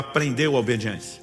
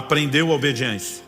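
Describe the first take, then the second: First: It is said with ordinary, lower energy. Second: It is said with more energy and enthusiasm.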